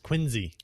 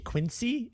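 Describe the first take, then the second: First: The middle consonant is a Z sound. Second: The middle consonant is an S sound. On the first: The speaker calls it right. "It's with a Z" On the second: The speaker calls it wrong. "if you say Quincy, it's you're fucked up"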